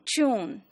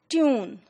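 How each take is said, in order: First: A y glide comes before the oo vowel. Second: The vowel after t is a plain oo.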